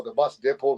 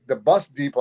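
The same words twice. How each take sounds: First: Depot said DEP-oh; alternative pronunciation. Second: Depot said DEE-po; first pronunciation. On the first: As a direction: say depot with a short "e". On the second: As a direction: say depot with a long "ee". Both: Shown as a demonstration. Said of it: "what do you wanna call it".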